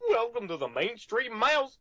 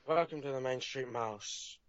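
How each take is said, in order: First: It is said in a Goofy voice. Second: It is said in a Jack Sparrow voice.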